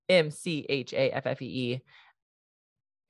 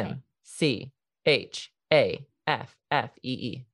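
First: The letters are spelled out at normal speed. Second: The letters are spelled out slowly.

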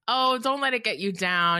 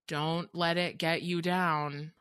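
First: It is said in a light, flippant tone. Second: It is said in a heavy, stern tone.

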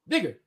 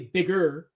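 First: The ending 'er' is dropped to an open vowel. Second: The ending is said with a full 'er' sound. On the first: "E-R, a lot of times just goes out and it just sounds like, oh" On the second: "they don't say bigger"

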